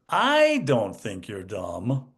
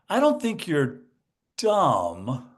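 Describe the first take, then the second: First: The stress falls on the word I. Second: The stress falls on the word dumb. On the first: Everyone else thinks you are dumb. "but everyone else does" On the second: Something else is wrong with you. "I'm not dumb, there's something else wrong with me"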